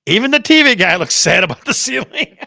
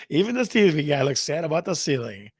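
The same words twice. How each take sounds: First: Higher and louder, laughing through the caption; reading the winner while laughing. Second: Said in the usual way. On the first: Real, not acted. Host laughing while reading out the winning caption. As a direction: announce it, cracking up. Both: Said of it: "and the winner is".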